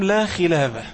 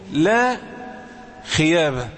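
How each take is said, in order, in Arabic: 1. الحرف الأوسط ينطق كصوت l. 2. الحرف الأوسط ينطق كصوت y. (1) "قال له قل لهم لا خلابة" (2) "كان يقولها ايه، لا خيابة، هو كأنه مش عارف ينطقها"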